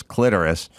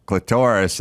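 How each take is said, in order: First: "clitoris" as "CLIT-er-is"; grandma's pronunciation. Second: "clitoris" as "cli-TOR-is"; his own pronunciation. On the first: Retold or imitated. Quoting what grandma swore by, "clitoris" as "CLIT-er-is". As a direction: stress the first syllable of "clitoris". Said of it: "she swore it was". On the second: Shown as a demonstration. Giving his side against grandma, "clitoris" as "cli-TOR-is". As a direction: put the stress on the middle syllable of "clitoris". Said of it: "I always said".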